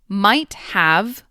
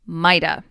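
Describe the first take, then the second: First: The word 'have' is said in full. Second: The word 'have' is reduced to a schwa.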